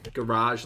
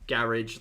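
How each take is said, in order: First: It is said to rhyme with barrage. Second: It is said to rhyme with carriage. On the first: "Garage like barrage" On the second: "Garage like carriage"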